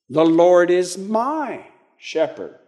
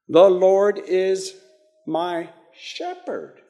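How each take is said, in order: First: The stress is on "my". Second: The stress is on "shepherd".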